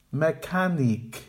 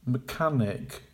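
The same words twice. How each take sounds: First: "Mechanic" with a full MEH first syllable, slow; incorrect full vowel. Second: "Mechanic" as muh-KAN-ik; correct with schwa. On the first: Teacher modelling the wrong "Mechanic". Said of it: "the incorrect pronunciation". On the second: Teacher modelling the correct "Mechanic". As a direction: reduce the first syllable of "Mechanic". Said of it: "Make the weak syllables quiet". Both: Shown as a demonstration.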